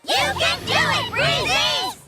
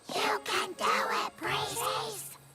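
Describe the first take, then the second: First: The cheer is shouted loudly. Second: The cheer is said quietly.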